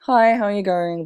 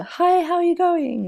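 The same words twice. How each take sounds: First: Mildly raised, louder friendly hello; friendly greeting. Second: Very high, louder put-on friendly voice; high friendly greeting. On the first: Retold or imitated. Imitating a nice person greeting people, friendly. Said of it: "nice friendly person". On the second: Mimicking the nice friendly person greeting people, high-pitched. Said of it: "Nice friendly person".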